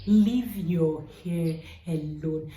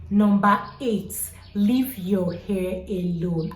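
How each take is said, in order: First: Slow, weighted "Leave your hair alone"; emphatic repeat. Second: Slow, louder, each word pressed: "leave your hair alone"; emphatic. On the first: Vlogger repeating her rule to viewers, slow and firm. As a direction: hit "Leave" and draw it out. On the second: Hair vlogger stressing her key rule, slow and emphatic. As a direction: lean hard on "leave". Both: Real, not acted. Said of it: "I can't put enough emphasis on that".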